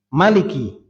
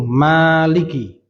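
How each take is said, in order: First: The first vowel is short, one beat. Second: The first vowel is held long. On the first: "bisa dibaca pendek" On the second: "Bisa dibaca mim panjang dengan mat"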